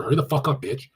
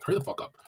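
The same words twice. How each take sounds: First: Mock rude text. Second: High, soft breathy teasing hurry; softer version. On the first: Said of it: "text her". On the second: Retold or imitated. Texting a softer girl, high soft teasing nudge. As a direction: tease her gently for a softer girl. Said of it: "if she's kind of softer".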